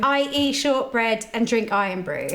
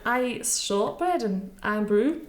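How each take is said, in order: First: A line fed in a light Scottish accent. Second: Slow laughing attempt at a Scottish accent. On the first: Host feeding the guest a line in a light Scottish accent. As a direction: model the line in a mild Scottish lilt. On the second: Guest repeating the host's line in a shaky Scottish accent. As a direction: try the Scottish line slowly, half laughing. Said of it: "shortbread was good. Iron brew let you down". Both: Shown as a demonstration.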